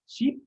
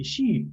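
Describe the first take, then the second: First: "ship" with a short, clipped i; "ship", short i rising. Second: "sheep" with a longer ee, falling. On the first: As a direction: say "ship" with a quick short vowel. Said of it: "la diferencia entre ship". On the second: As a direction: stretch the vowel in "sheep". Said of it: "la diferencia entre ship y sheep". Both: Shown as a demonstration.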